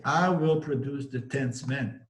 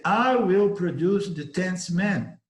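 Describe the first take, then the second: First: Said in the usual way. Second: Louder, higher, slow and commanding; powerful certainty. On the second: Acted. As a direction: promise it with total certainty. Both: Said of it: "said that with such power, certainty".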